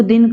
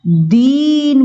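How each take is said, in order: First: Said in the usual way. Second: दीन with a long, drawn-out ee; stressed long vowel. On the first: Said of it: "दीन बोलने के लिए बड़ी का प्रयोग". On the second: Shown as a demonstration. Teacher showing how stress changes a word, दीन stressed and stretched. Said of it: "अक्षर पे बल दिया जाएगा".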